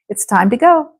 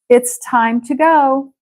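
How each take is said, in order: First: It is said at a quicker, running pace. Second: It is said at a slower, careful pace.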